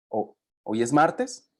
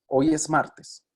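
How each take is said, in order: First: The pitch rises at the end. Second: The pitch falls at the end. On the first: It is a yes-no question. "en la segunda va ascendente" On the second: It is a statement. "en la primera la entonación va descendente"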